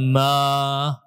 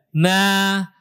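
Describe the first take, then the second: First: "ma" with a heavy, backed a; thick vowel, wrong. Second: "Na" with a thin, front a and relaxed tongue; thin, relaxed vowel. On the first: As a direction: say "ma" thickly, drawn out, like a mistaken reading. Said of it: "bukan ma". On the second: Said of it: "Jadi dibaca tipis semuanya, rileks". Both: Shown as a demonstration.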